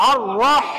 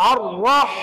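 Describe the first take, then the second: The two takes are said the same way.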